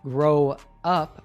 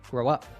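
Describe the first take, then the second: First: The two words are said separately. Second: The two words are linked together. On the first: "instead of grow up" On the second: "the verb and particle link together"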